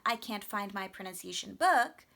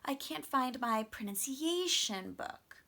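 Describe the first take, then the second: First: The stress falls on the word book. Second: The stress falls on the word pronunciation.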